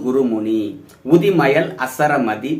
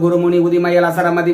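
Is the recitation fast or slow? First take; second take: slow; fast. First: It is recited very slowly and carefully. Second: It is recited at a normal pace.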